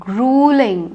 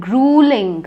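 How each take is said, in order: The two takes are said the same way.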